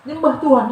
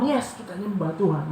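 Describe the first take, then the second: First: Loud emphatic call. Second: Said in the usual way. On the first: Shown as a demonstration.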